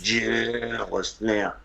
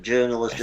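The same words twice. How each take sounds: First: Drawn-out, disdainful JOURNALIST. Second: Said in the usual way. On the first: Shown as a demonstration. Co-host showing scorn for the media, disdainful. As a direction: stretch the first syllable of journalist with open contempt. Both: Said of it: "my disdain for the media".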